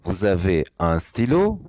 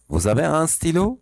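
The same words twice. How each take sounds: First: Slow repeat. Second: Example read. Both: Shown as a demonstration.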